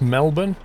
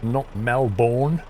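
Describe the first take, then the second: First: The last syllable is a reduced 'bun'. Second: The last syllable is a full 'bourne'. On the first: The speaker calls it right. "it's Melbourne" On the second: The speaker calls it wrong.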